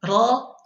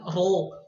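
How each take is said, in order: First: The mouth is open with lips unrounded. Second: The lips are rounded and pushed forward. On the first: The speaker calls it right. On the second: The speaker calls it wrong.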